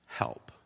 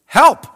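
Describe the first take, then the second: First: Help whispered, breathless and hushed; a hushed, unvoiced Help; whispered plea. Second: A high, loud, cracking cry of Help; Help. yelled high and loud, breaking upward; desperate yell. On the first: Shown as a demonstration. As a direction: breathe Help almost silently. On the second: Retold or imitated. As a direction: fling Help. out as a last plea. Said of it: "I just yelled".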